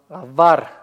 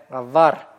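Both takes have the same delivery.

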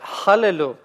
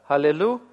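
First: It begins with a harsh, scratchy h sound. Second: It begins with a soft, light h sound. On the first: It means desecrate. The speaker calls it wrong. "произнесете «халлелю», то получится слово с противоположным значением" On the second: It means praise. The speaker calls it right. "вместо «халлелю»"

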